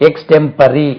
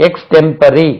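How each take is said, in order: The two takes are said the same way.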